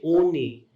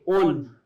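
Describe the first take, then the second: First: A final vowel sound is pronounced. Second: The final letter stays silent. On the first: The speaker calls it wrong. "you don't say oni" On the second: The speaker calls it right. "you say un"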